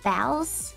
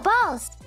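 First: The vowel sounds like the one in 'bales'. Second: The vowel sounds like the one in 'balls'. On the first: The speaker calls it right. "but I do think it's Bales" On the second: The speaker calls it wrong. "No, absolutely not"

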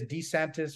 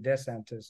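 First: The first syllable sounds like 'dee'. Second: The first syllable sounds like 'day'. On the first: "It could be D" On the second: "or Day"

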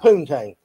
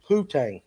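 First: It is said with an N sound. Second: It is said with no N sound. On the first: The speaker calls it wrong. "not poontang" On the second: The speaker calls it right. "The N is silent in that"

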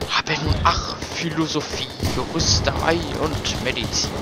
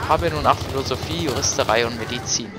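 First: The lines are recited in an exaggerated, theatrical manner. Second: The lines are recited in a plain, casual manner. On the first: "eigentlich müsste das dann ungefähr so klingen ... so vollkommen bescheuert" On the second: "So habe ich das vorgetragen. Klingt eigentlich nicht so schlecht"

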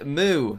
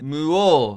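First: It is said in an American accent. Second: It is said in a Swedish accent. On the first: "in the U S they say" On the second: "in Sweden they say"

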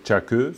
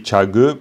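First: The middle consonant is a voiceless k sound. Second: The middle consonant is a voiced g sound. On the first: The speaker calls it wrong. "plutôt que tchake" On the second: The speaker calls it right. "Si on dit tchage plutôt que tchake, c'est beaucoup mieux"

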